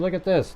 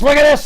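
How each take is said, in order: First: It is said in a calm, plain tone. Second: It is said in an excited tone.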